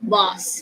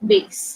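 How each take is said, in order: First: It is said with a British pronunciation. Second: It is said with an American pronunciation. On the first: "in British English, you pronounce it as was" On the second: "in American English, they say base"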